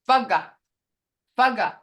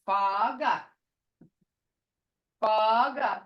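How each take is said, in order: First: The vowels are said short and quick. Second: The vowels are drawn out long.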